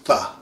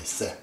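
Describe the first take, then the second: First: It begins with a th sound. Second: It begins with an s sound. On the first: This is the Arabic way of saying it. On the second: This is the Persian way of saying it. "But Persians simply say se"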